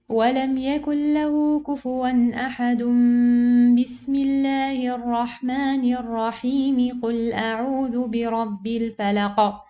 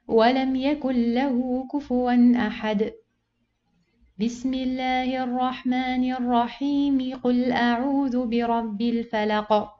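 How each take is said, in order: First: It runs through with no pause at all. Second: It pauses before the basmala, then flows on. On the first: "joining all together" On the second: "you finish the first surah, you pause, and you join the basmala with the second surah"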